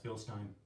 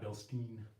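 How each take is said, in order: First: The second syllable rhymes with "line". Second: The second syllable rhymes with "seen". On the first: The speaker calls it right. "it's Bill Stein" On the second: The speaker calls it wrong. "not Bill Steen"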